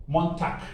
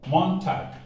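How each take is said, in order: No difference in how they are said.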